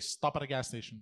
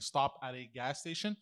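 First: The words are run together as one word. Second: The words are said separately and clearly. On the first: "He puts like sentences in one word" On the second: "instead of saying stop at a gas station"

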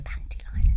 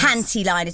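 First: The words are said in a hushed, embarrassed voice. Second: The words are said in a normal, open voice. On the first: The speaker finds the word embarrassing. "So I used to go" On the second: The speaker is comfortable saying it. "saying panty liners like a normal person"

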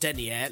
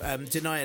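First: The word is pronounced like the tights measure. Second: The word is pronounced like one who denies. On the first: A measure of thickness for tights. The speaker calls it wrong. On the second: A person who denies something. The speaker calls it right.

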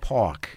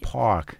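First: It is said in a New York accent. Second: It is said in a general, non-New York accent. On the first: The speaker calls it right. "when you say" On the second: The speaker calls it wrong. "not park"

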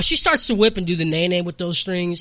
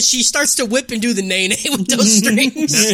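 First: The words are said without laughing. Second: The words are said while laughing.

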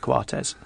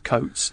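First: The name is said the Uruguayan way. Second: The name is said the Scottish way. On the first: This is the pronunciation the bearer prefers. "but in Uruguay I prefer Coates" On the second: This is the family's original pronunciation. "my father's Scottish, it is Coates"

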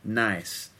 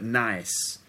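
First: The word is said in a slangy London accent. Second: The same.

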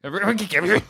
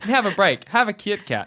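First: It is said very fast. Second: It is said at a normal pace.

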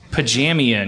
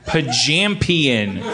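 First: The word is said without a 'p' sound. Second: The word is said with a 'p' sound. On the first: The speaker calls it wrong. "You kept leaving the most explosive letter out" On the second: The speaker calls it right. "so you said Pajampion"

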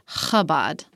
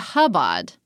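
First: It starts with a harsh, throaty, spitting sound. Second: It starts with a soft, plain h sound. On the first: This is the fuller, proper way to say it. "but Chabad. I like saying it that way" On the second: This is an acceptable simpler way to say it. "you can just say Chabad"

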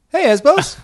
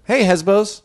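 First: It is said at a higher pitch. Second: It is said at a normal, genuine pitch.

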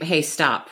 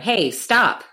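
First: It is said at normal volume. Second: It is said loudly. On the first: The first warning assumes the other person will listen. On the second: The speaker is getting panicked or thinks the first warning was not heard.

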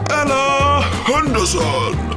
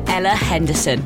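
First: It is said in a put-on announcer voice. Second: It is said in his normal voice.

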